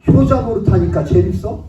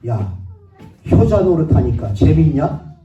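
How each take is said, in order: First: Higher, louder mocking taunt with a rising end; sick father taunting his son, loud and sarcastic. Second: Loud, slow, mocking sneer at the dutiful son; mocking father's loud taunt; sarcastic jab. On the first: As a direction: throw the jab again, pitched up and rising. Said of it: "이러더라고요". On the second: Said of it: "저희 아버님이 저한테 뭐라고 얘기하냐면".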